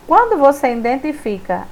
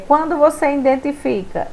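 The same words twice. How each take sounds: The two takes are said the same way.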